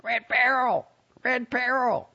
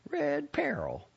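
First: High squawking parrot cry; shouting parrot. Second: Slow, high, proud lady voice; old lady voice. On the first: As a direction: squawk it like a bird. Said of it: "shouted out". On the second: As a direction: say it fondly, savoring it. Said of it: "and said, "Red Peril". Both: A narrator's reading.

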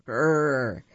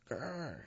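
First: Rolling growl like a tiger. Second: Much softer growl under the breath; quiet tiger growl. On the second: Tigers can only growl. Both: Acted.

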